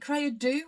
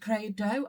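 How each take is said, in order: First: The last syllable sounds like 'do'. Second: The last syllable sounds like 'dough'. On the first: "like do this, do that" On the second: "as in, you know, bread dough, knead the dough"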